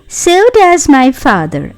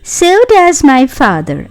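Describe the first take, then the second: First: It is said in a whining voice. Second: It is said in a whining voice.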